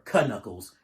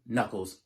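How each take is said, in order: First: The initial K is pronounced aloud. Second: The initial K is silent.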